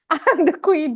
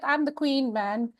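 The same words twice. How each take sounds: First: Louder proud boast. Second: Proud boast. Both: Retold or imitated. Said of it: "I was like".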